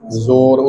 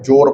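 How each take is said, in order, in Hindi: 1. यह शब्द 'z' की ध्वनि से शुरू होता है। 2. यह शब्द 'j' की ध्वनि से शुरू होता है। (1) "उत्थे जज्जे दे पैर च बिंदी है" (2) "इत्थे जोड़न की गल है, इत्थे जोर पढ़ांगे"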